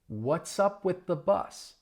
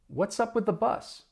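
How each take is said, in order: First: The sentence is spoken slowly. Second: The sentence is spoken quickly. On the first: "I'll say it slowly" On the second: "Let's speed it up"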